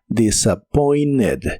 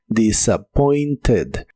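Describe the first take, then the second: First: The middle T sound is dropped. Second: The middle T sound is clearly pronounced. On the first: "es muy común que no se pronuncie la T de esta palabra" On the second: "se pronuncia con la e suave"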